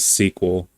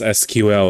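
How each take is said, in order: First: It is said as one word, like sequel. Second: It is spelled out letter by letter. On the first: The speaker calls it wrong. "Like it's a movie or something" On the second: The speaker calls it right. "I will never pronounce S Q L as"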